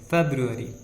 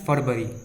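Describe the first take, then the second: First: It is said as four syllables, 'feb-ru-a-ry'. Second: It is said as two short syllables, 'far-vari'. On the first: The speaker calls it right. "फेब्रुअरी, ना कि फरवरी" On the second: The speaker calls it wrong. "ना कि फरवरी"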